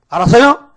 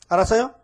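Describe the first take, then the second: First: 알았어요 shouted loud and higher, rising; loud demand. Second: Said in the usual way. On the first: Shown as a demonstration. Preacher demands the congregation's reply, loud. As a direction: bellow 알았어요 to get an answer.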